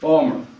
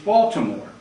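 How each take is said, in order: First: The name is clipped in the Baltimore local accent. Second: The name is said in full, three syllables.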